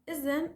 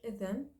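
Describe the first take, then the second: First: The middle consonant is a z sound. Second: The middle consonant is a th-like sound. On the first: This is the Lebanese dialect form. "We replace it with za" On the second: This is the Modern Standard Arabic form. "should be pronounced in modern standard Arabic"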